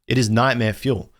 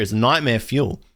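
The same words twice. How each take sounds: First: Is said in full and leaned on, not shortened to it's; restating it firmly with the weight on is; stress on is. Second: Said in the usual way. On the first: Shown as a demonstration. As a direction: insist by hitting the word is.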